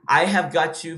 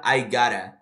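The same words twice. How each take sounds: First: "I have got to" with all four words kept; full form. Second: "gotta" as one joined word, dropped lower; reduced form. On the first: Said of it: "eles juntam tudo?". ("I have got to" completo, sem juntar) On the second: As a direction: melt "got to" into "gotta". ("gotta" tudo junto, em tom mais grave) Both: Shown as a demonstration.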